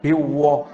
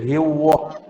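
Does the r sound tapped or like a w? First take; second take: like w; like w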